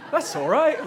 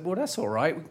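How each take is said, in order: First: Much higher and louder, laughing and eager; hammed-up breezy teen naivety; cheerful naive teenager. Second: Said in the usual way. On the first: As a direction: gush it like a clueless, happy seventeen-year-old. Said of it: "Cheerful naivety". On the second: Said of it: "Slipping into my seventeen-year-old self there".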